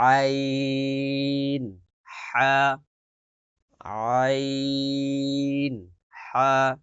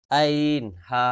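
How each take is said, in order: First: আইন drawn out very slowly, each letter given its full time; slow correct recitation. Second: আইন clipped short and hurried straight into হা; rushed wrong recitation. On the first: Teacher showing students the right way to recite the letters, slowly and unhurried. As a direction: take your time on আইন, then হা. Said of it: "এইভাবে". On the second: Teacher showing students the wrong, hurried way to recite the letters. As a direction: rattle off আইন হা too fast. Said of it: "এইভাবে না". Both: Shown as a demonstration.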